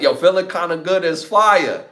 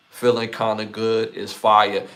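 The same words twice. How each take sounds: First: Higher and louder, hyping the song; yo, get hyped about it. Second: Said in the usual way. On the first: Real, not acted.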